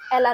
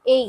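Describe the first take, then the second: First: The middle consonant is sounded like an L. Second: The middle consonant is sounded like a Y. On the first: The speaker calls it wrong. "एला नहीं" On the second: The speaker calls it right. "तो इसको बोलेंगे ए या"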